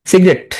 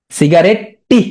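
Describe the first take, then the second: First: Said in the usual way. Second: সিগারেট with an extra rising "টি" tacked on; spelling pronunciation. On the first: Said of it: "সোজা". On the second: Shown as a demonstration. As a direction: voice the silent ending as টি. Teacher sounds out the spelling. (বানান ধরে "সিগারেট-টি")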